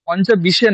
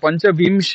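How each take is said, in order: First: It is said with no nasal before 'sh'. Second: It is said with a nasal before 'sh'. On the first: The speaker calls it wrong. "পঞ্চবিশে নয়" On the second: The speaker calls it right. "অনুস্বারটা উচ্চারণ করুন"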